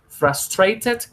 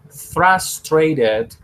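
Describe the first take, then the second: First: The middle consonant is a clear t sound. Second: The middle consonant is a tapped r-like sound. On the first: "con T" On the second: "con R"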